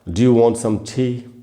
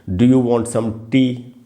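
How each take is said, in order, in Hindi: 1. यह अंग्रेज़ी लहजे में बोला गया है। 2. यह भारतीय लहजे में बोला गया है। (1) "एक अंग्रेज़ ऐसे बोलेगा" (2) "हम लोग ऐसे बोलेंगे"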